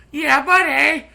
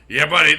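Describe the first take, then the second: First: High, loud hyped shout; hype catchphrase. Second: Said in the usual way. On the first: Acted. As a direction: shout it like a wrestling fan.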